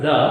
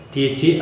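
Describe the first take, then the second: First: "the" as in "thuh". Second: "the" rhyming with "see"; "the" as thee. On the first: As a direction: say "the" with a neutral vowel. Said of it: "pronounce T H E". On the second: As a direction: say "the" with a long ee. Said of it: "where to pronounce". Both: Shown as a demonstration.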